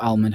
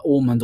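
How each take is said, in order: First: "almond" as AL-mund; alternative pronunciation. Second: "almond" as AWL-mund; first pronunciation. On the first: Host allowing either way of saying it, alternative pronunciation. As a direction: say "almond" with a short a as in "pal". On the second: Host allowing either way of saying it, first pronunciation. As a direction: say "almond" with an aw vowel. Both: Shown as a demonstration. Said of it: "however you want to pronounce it".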